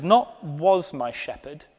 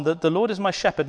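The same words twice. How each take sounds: First: "not was my shepherd" slowed, with "not" pushed up and held; slow, scornful "not was"; stress on not. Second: "that the Lord is my shepherd" run quickly, leaning on "is"; quick and firm on "is my shepherd"; stress on is. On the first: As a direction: dismiss the past tense. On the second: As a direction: present tense pressed. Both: Shown as a demonstration.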